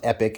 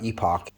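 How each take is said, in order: First: The name sounds like the word 'epic'. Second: The name sounds like the word 'epoch'. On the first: The speaker calls it right. "it's pronounced Epic" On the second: The speaker calls it wrong. "not Epoch"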